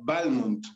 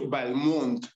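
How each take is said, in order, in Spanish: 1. El acento está en la primera sílaba. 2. El acento está en la segunda sílaba. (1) "decía que tenía que acentuarse en la primera letra, es decir, él pronunciaba Balmont" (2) "su primera esposa de Balmont, ella dijo, se debe decir Balmont"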